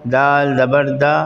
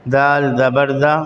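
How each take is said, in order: The two takes are said the same way.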